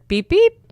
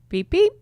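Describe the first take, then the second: First: The beeps are said louder. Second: The beeps are said fairly softly.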